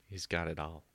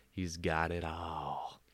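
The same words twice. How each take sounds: First: Said in the usual way. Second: Slow, low, weighty delivery; slow dramatic repeat. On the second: Shown as a demonstration. Host repeats it about the snake, slow and mock-solemn. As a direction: let each word land slowly, mock-solemn.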